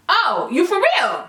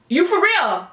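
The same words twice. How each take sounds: First: Slow disbelief. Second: Said in the usual way. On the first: Retold or imitated. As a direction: stretch it out slowly, unimpressed. Disbelief at customer's return request.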